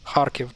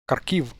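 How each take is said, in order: First: The stress is on the first syllable. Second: The stress is on the second syllable. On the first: The speaker calls it right. "the first one would actually be the correct one" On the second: The speaker calls it wrong. "they also move the emphasis on the second syllable"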